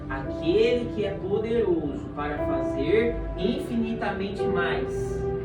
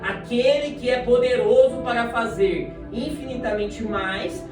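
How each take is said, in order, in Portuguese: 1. A frase é lida mais devagar e de propósito. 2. A frase é lida em ritmo normal.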